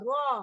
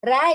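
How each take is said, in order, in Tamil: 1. இந்த எழுத்தின் பெயரில் கனமான, வட்டமான o போன்ற ஒலி இருக்கு. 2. இந்த எழுத்தின் பெயரில் லேசான, திறந்த a ஒலி இருக்கு. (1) "அதான் ஹெவியா சொல்லணும்" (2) "ரா இல்ல"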